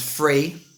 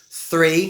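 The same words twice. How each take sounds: First: "free" for three, starting on F. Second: Said in the usual way. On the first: Shown as a demonstration. Teacher showing learners three said as "free". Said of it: "with a V or an F". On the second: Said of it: "the T H sound is replaced".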